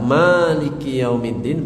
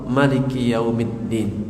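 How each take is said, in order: First: The first vowel of maliki is long. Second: The first vowel of maliki is short.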